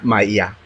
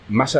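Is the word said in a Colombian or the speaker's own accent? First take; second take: Colombian; own accent. First: The word is said in a Colombian accent. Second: The word is said in the speaker's own accent. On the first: "un colombiano, ¿cómo diría?" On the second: "malla decimos nosotros"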